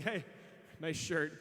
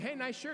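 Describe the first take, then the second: First: Low-pitched mocking remark; same praise turned into a jab; snide compliment. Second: Higher, upbeat passing compliment; friendly compliment. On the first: Same words meant as an insult. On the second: Retold or imitated. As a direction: toss it out as sincere praise. First, sincere compliment of the pair.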